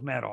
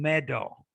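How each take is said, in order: First: The middle consonant is a quick flap. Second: The middle consonant is a clear D. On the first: The speaker calls it right. "I use a flap in both cases" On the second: The speaker calls it wrong. "if you use the D, you're saying medal"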